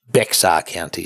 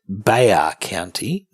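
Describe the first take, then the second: First: The name is said with an x sound. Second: The name is said with no x sound. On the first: The speaker calls it wrong. "not Bexar County, so the X is silent" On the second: The speaker calls it right. "it's actually pronounced"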